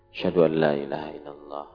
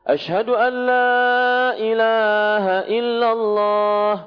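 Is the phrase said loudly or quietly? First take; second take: quietly; loudly. First: The phrase is said in a soft, low voice. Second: The phrase is said in a loud, raised voice. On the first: "Dipelankan dulu" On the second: "baru setelah itu dikeraskan"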